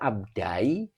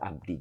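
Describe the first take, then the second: First: The word ends with an 'ai' sound. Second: The word ends with a plain 'i' sound. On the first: The speaker calls it wrong. "Kalau dibaca abdai, berat menurut kiroat" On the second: The speaker calls it right. "Jadi tetap dibaca abdi"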